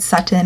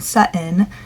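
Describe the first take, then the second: First: The middle T is a clear, released T. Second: The middle T is a glottal stop. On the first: "with the T sounds like at the front of their mouth" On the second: "a stop, saying this T sound in the back of their mouth"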